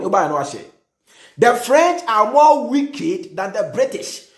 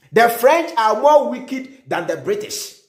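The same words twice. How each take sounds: First: Each word drawn out very slowly; dragged-out stress on "more wicked"; slow emphatic repeat. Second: Said in the usual way. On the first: Shown as a demonstration. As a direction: spell out "the French are more wicked than the British" word by word, stressing "more". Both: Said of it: "And then be one".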